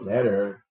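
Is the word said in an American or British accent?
American. It is said in an American accent. "em inglês americano"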